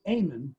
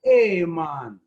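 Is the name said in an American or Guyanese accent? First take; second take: American; Guyanese. First: The name is said in an American accent. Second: The name is said in a Guyanese accent. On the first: "instead of saying Eamon" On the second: "they would more likely say it like this"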